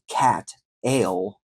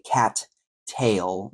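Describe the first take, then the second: First: The middle T sound is missing entirely. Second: Both T sounds are fully released. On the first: It sounds like a different word. "We don't say cat ale like cat beer" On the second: It sounds overly careful. "That's an overenunciation"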